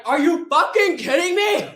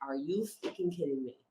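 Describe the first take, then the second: First: High, loud shout of disbelief; full-voiced retold incredulous outburst; outraged yell. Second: Low, soft retold exasperation; quiet, incredulous aside; muted disbelief. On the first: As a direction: explode at them, imitating an outraged friend. Sasha's retold outburst at diabetic hiker. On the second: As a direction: say it under your breath in disbelief. Retold disbelief at tired hiker.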